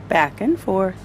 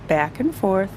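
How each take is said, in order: Both takes have the same delivery.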